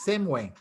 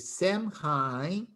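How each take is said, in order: First: It is said with a Gaelic pronunciation. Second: It is said with an American English pronunciation. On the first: This is how Gaelic speakers say it. "But in Gaelic, Samhain" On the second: This is how English speakers would say it. "in American English, you would probably say Samhain"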